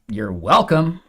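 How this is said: It is said in a snide, passive-aggressive way. The speaker implies resentment toward the listener. "passive aggressive you're welcomes"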